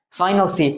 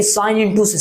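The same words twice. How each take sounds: First: "sine of C" with OF between function and angle; correct reading. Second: "sine into C" with INTO in place of "of"; wrong reading. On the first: Teacher confirms for students, "sine of C" read with OF. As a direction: say "sine of C" as one phrase with OF. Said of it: "इसलिए हम direct sine C बोल सकते हैं". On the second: Teacher warns students, "sine into C" read as multiplication. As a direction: read "sine into C" as if it were a product. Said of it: "अब ये नहीं कि". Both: Shown as a demonstration.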